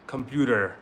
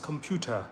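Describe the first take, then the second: First: It is said in an American accent. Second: It is said in a British accent. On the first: "American क्या बोलते हैं?" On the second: "British they pronounce computer"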